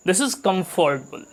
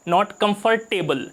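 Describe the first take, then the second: First: Comfortable as "kumf-ter-bul"; comfortable said right. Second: Comfortable as "com-for-table", every syllable; the mistaken four-syllable comfortable; wrong comfortable. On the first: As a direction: clip comfortable to three syllables. (comfortable को कम्फ़्टबल बोलें) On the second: (comfortable को कम-फ़ोर-टेबल बोलना गलत) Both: Shown as a demonstration.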